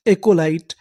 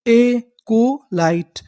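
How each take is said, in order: First: Said in the usual way. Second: एकोलाइट said slowly, syllable by syllable; very slow sounding out. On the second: Shown as a demonstration. Teacher sounding out the word for the class, very slow. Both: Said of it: "तो पूरी meaning क्या बनी?".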